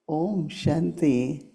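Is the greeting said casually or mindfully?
mindfully. It is said slowly and with calm intent. The speaker feels peace and means the greeting. The speaker calls it right. "Properly, just uh, uh, soul consciousness"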